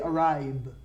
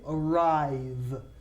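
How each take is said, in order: First: The final consonant is a B sound. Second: The final consonant is a V sound. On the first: The speaker calls it wrong. "We do not say arrive" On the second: The speaker calls it right. "It's a V. And look at my teeth. They are on my lower lip"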